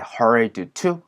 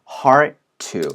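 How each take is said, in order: First: The D sound before 'to' is clearly pronounced. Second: The D sound merges into the T sound. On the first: "hurried to 라고 얘기를 안" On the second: "D와 T 사운드는 비슷한 소리다 보니까 앞에 사운드가 잘 들리지 않거든요"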